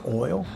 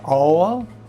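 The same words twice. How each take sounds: First: It is said with a Nebraska Midwestern accent. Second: It is said with an Alabama Southern accent.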